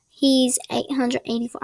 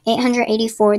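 First: Light put-on accent, "four" without its R. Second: Said in the usual way. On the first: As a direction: slip briefly into a playful accent, softening "four" to "foah". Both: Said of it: "I don't know why I did the accent".

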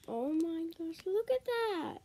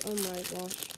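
First: High, delighted gasp of wonder; excited. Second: Said in the usual way. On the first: Real, not acted. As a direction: squeal at the cute candy. Sees the fish-shaped candy.

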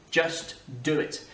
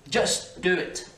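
First: Slow "Just do it."; slow slogan. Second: Slow, slogan-style "Just do it."; Nike slogan. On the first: Teacher repeating the slogan slowly. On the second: Teacher quoting the Nike ad, slow and drawn. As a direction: drawl "Just do it." like the ad tagline. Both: Retold or imitated. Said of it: "Nike, just do it".

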